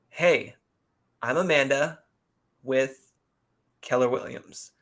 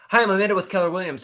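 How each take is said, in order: First: The phrase is spoken slowly. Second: The phrase is spoken quickly. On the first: The speaker calls it right. "it doesn't have to be that slow, but slow it down" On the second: The speaker calls it wrong. "Don't go fast. Don't say"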